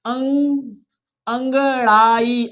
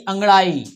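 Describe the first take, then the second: First: अंगड़ाई lent, chaque syllabe détachée; découpe अंगड़ाई pour que la classe suive; lecture syllabée. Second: Said in the usual way. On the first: Shown as a demonstration. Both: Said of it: "हमारे साथ पढ़ना है आपको".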